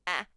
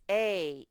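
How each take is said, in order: First: The vowel is short, like in cat. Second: The vowel is long, saying the letter name. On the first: "So short sounds are" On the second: "the long sounds, when the baby gets long"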